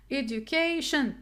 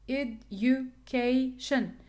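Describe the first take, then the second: First: "Education" with the stress on CA, said as KAY; edu-CA-tion, second syllable from the end stressed. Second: "education" broken slowly into ed-u-ca-tion; slow teacher's breakdown of "education", CA as KAY; syllable by syllable. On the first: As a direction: model "Education" for learners, leaning on the CA. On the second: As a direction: spell out "education" by sound, a gap after each syllable. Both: Shown as a demonstration. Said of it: "the primary stress in K".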